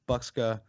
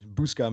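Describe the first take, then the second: First: The K sound comes before the S sound. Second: The S sound comes before the K sound.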